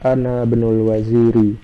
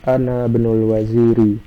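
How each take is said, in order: First: The words run together, skipping the 'al' vowel. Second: The same.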